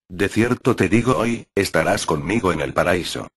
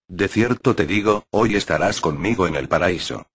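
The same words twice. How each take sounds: First: The pause comes after the word hoy. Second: The pause comes before the word hoy.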